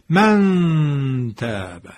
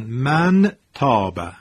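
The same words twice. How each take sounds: First: The n is hidden as a drawn-out nasal hum. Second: The n is pronounced fully and clearly. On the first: The speaker calls it right. "این میشه اخفا... من دارم میکشم... از فضای بینی" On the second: The speaker calls it wrong. "اگر اظهار بود چی میشد؟ میشد مثلا من تاب"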